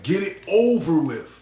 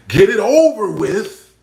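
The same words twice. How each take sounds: First: Said in the usual way. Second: Slow and louder, "over" rising and drawn out; "Get it over with" stretched slow, "over" lifted; slow emphatic. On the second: Shown as a demonstration. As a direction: lean on each word of "Get it over with".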